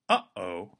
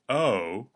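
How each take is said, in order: First: A brief catch in the throat separates the vowels. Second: The two vowels glide smoothly into each other. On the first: The speaker calls it right. "you paused the flow of air, formed a clean break" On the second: The speaker calls it wrong. "gliding directly from one vowel to the other"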